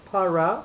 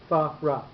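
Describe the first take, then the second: First: The word begins with a p sound. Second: The word begins with an f sound. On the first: The speaker calls it wrong. "not para" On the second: The speaker calls it right. "but Farah. The pay doesn't have a dot in it"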